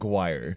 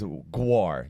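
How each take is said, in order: First: The syllable ends in an 'ire' sound. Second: The syllable ends in an 'ar' sound. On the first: The speaker calls it wrong. "not guire" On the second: The speaker calls it right. "it's guar"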